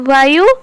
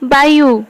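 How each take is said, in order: First: The word begins with a v sound. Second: The word begins with a b sound. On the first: This is the Hindi pronunciation. "Hindi रे वायु" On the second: This is the Odia pronunciation. "Odia रे वायु"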